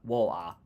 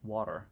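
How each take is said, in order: First: It is said in a mock British accent. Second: It is said in an American accent. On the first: Americans mocking how British people talk. "they try and do a really bad British accent" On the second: How Americans themselves talk. "but you guys say water"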